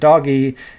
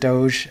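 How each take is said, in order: First: The G is a hard sound. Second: The G is a soft sound. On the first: The speaker calls it right. "the G is a G sound, so I'll pronounce it doggy" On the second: The speaker calls it wrong. "I refuse to pronounce it Doge"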